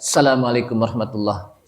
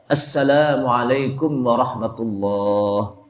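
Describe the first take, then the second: First: The vowel in warahmatullah is kept short. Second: The vowel in warahmatullah is held long. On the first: The speaker calls it wrong. "Jadi tidak baca" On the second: The speaker calls it right. "Ada panjangnya"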